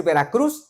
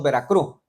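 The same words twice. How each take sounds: First: Said in the usual way. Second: "Veracruz" with the final z dropped; Veracruz regional pronunciation. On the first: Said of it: "en lugar de decir Veracruz". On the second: Shown as a demonstration. Preacher showing his hometown speech, "Veracruz" without its final s sound. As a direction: say "Veracruz" ending on a stressed open "cru". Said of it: "decimos Veracruz".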